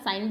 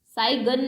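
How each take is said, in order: First: Said in the usual way. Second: "साई गन" for sign, with a hard g; G sounded. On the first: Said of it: "साइन बोलते हैं". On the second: Shown as a demonstration. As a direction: break sign in two as "साई गन", g voiced. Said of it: "नहीं बोलते आप".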